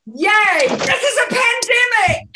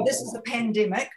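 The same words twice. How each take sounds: First: Joyful shout, much higher and louder; beaming, gleeful shout. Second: Said in the usual way. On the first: Shown as a demonstration. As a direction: cheer it out like great news. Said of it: "with joy". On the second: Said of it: "um, with joy".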